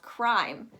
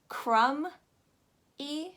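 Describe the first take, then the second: First: The vowel is said like 'eye'. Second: The vowel is not said like 'eye'. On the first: The speaker calls it right. "You're going to pronounce it as crime" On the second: The speaker calls it wrong. "You're not going to pronounce it as crumb E"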